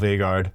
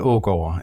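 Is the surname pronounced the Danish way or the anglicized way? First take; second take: anglicized; Danish. First: The surname has a simplified anglicized pronunciation. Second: The surname has its native Danish pronunciation. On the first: "I've just gone ahead and just called myself" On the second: "my full name in Danish is"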